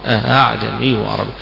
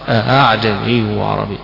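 No difference in how they are said.

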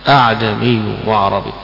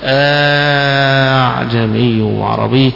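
First: Only one hamza is pronounced at the start. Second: The second hamza becomes a long drawn-out vowel. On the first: "بهمزة واحدة" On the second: "بالمد فيها"

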